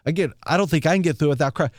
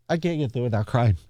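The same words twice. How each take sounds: First: Said in the usual way. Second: Laughing to keep from crying; teary laugh. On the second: Real, not acted. Telling strangers about the veteran, laughing through tears.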